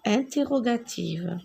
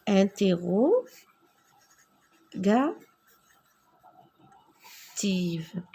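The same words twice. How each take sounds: First: Said in the usual way. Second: Mot chuchoté et étiré; chuchoté très lentement. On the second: Shown as a demonstration. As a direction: souffle chaque syllabe lentement. (interrogative chuchotée, très lente)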